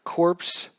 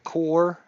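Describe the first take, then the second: First: The word ends with audible p and s sounds. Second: The word ends without p or s sounds. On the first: The speaker calls it wrong. "I keep calling it corpse" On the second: The speaker calls it right. "It is core. The S is silent"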